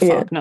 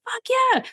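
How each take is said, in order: First: It is said with a sarcastic tone. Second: It is said with genuine enthusiasm. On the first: It actually means no. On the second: It means something is really good. "really, really good"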